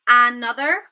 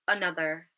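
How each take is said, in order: First: The first vowel is a full, clear vowel. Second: The first vowel is a weak schwa. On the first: The speaker calls it wrong. "instead of another" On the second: The speaker calls it right. "we might say another"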